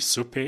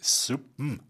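First: It is said in standard German with a clear P. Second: It is said in Franconian with a soft B-M ending. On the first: "die Suppe ist" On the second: "im Fränkischen die Suppen, weil man vom weichen B sehr schnell zum M übergehen kann"

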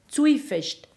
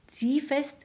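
First: The word is said in old dialect form. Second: The word is said in standard German form.

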